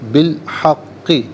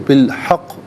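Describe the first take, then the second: First: The word ends with a short i vowel. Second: The word ends on the consonant, vowel dropped. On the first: The reading continues without stopping. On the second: The reader stops at this point.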